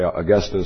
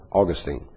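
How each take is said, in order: First: Augustine stressed on GUS, short -tin ending; pronunciation uh-GUS-tin. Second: Put-on Augustine stressed at the front, long -teen ending; pronunciation AW-gus-teen. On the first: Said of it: "Some people say Augustine". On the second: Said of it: "some people say Augustine". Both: Shown as a demonstration.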